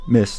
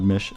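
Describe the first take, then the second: First: The word ends with an s sound. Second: The word ends with an sh sound. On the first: The speaker calls it right. "miss is actually spelled M I S S" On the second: The speaker calls it wrong. "not mish"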